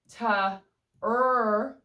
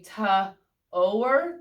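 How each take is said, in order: First: The vowel is an er sound. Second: The vowel is a long O sound. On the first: "O R can say er" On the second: "O blank E, if it's a silent E, can say long O"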